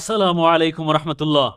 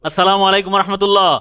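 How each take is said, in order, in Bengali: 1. সালামটি স্বাভাবিক আওয়াজে বলা হয়েছে। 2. সালামটি জোরে বলা হয়েছে।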